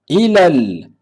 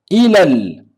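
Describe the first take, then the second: The two takes are said the same way.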